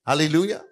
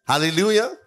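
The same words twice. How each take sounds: The two takes are said the same way.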